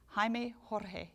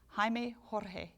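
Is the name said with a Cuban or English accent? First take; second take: Cuban; Cuban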